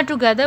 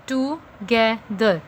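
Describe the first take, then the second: First: Said in the usual way. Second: "टुगेदर" split slowly into three parts; syllable by syllable. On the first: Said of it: "टू one syllable". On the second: Shown as a demonstration. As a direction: say "टुगेदर" as to, ge, ther with a pause after each. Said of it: "टू one syllable, गे one syllable".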